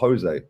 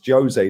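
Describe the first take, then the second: First: The name is given a Spanish pronunciation. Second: The name is given a Portuguese pronunciation. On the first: "not Jose" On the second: "could potentially be Portuguese and then it's Jose"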